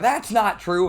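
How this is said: It is said loudly and angrily.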